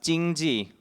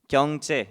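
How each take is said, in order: First: The word is pronounced the Mandarin way. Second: The word is pronounced the Korean way. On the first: "it's pronounced 经济 in Mandarin" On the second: "경제 in Korean"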